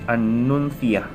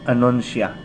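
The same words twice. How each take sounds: First: The word is said with Spanish pronunciation. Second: The word is said with Cebuano pronunciation. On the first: The speaker calls it right. "But it is letter C, so we pronounce it as anuncia" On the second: The speaker calls it wrong. "if uh, we are going to pronounce it in Cebuano"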